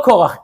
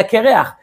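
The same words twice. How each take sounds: First: Said in the usual way. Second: קרח said as kereach, like the word for bald; Kereach, not Korach. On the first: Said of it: "אלא קרח". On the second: Shown as a demonstration. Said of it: "לא, לא קורח".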